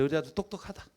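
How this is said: It is said grudgingly, with a tongue click. The praise is not meant sincerely. "인상을 쓰고 혀를 차면서"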